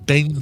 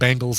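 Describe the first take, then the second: First: The first vowel sounds like 'e' in bed. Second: The first vowel sounds like 'a' in bang. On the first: The speaker calls it right. "no, it's the Cincinnati Bengals. / definitely an E in there, not an A" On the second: The speaker calls it wrong. "I hear them pronouncing Bengals"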